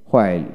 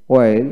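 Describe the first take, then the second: First: হোয়েল with an audible h first; হোয়েল starting on breathed hw; American h pronunciation. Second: ওয়েল starting on w, no h; ওয়েল with a plain w onset; British w pronunciation. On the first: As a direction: sound the h in হোয়েল. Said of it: "আমেরিকানে হ". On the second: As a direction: drop the h in ওয়েল. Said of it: "British উচ্চারণে". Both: Shown as a demonstration.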